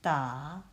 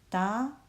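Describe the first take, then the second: First: The pitch dips low and then rises. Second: The pitch rises from middle to high.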